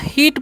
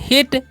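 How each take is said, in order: First: The vowel is long and drawn out. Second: The vowel is short and quick. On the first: The speaker calls it wrong. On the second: The speaker calls it right.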